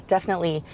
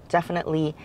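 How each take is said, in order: Both takes have the same delivery.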